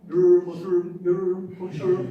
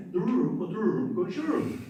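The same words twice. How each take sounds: First: Put-on louder Black Sea Turkish accent on "Dururum"; mock the Black Sea Turkish accent with a loud rolling R. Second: Put-on Black Sea Turkish accent, rolled R, "dururum" sing-song. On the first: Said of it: "Did you hear some people here?". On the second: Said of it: "Some people say".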